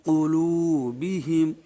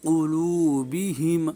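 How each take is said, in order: The two takes are said the same way.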